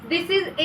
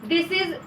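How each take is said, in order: The two takes are said the same way.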